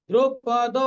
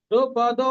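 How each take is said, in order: The two takes are said the same way.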